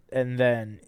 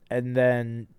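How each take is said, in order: Both takes have the same delivery.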